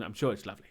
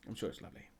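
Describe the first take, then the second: First: Said in the usual way. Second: Unvoiced whispered repeat; whispered aside. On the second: Real, not acted. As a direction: whisper I'm sure it's lovely much softer. Repeats the reassurance under breath.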